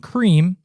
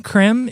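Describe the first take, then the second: First: The vowel is a long 'ee' sound. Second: The vowel is a short 'eh' sound. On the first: The speaker calls it wrong. "to those that think that C R E M E, creme, is pronounced C R E A M, cream" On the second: The speaker calls it right. "E with the grave accent denotes the pronunciation eh, as in bet"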